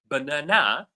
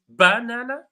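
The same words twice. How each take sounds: First: The stress is on the third syllable. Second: The stress is on the first syllable. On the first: "third syllable" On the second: "the stress falls on the first syllable"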